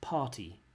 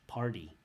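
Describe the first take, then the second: First: It is said in a British English accent. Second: It is said in an American accent, t like d. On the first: "British English party" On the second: "American English party"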